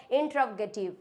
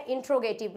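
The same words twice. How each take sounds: First: इंट्रोगेटिव with "trov" in the middle: in-trov-ge-tiv; correct pronunciation. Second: इंट्रोगेटिव squeezed to in-tro-ge-tiv; wrong pronunciation. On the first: Teacher giving the corrected form, इंट्रोगेटिव as "in-trov-getiv". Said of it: "ये होता है इंट्रोगेटिव". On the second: Teacher showing second common mistake, इंट्रोगेटिव with "tro". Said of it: "ये दोनों ही गलत होते हैं". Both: Shown as a demonstration.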